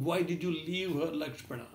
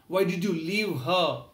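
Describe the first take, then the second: First: Fading, quieter tearful why; trailing off in mild grief; soft pained repeat ending on Lakshmana; softer repeated reproach. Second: Slow, louder tearful reproach; slow pained why did you leave her; anguished question. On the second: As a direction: lean on why, mildly anguished. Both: Acted. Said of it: "Rama started crying uncontrollably".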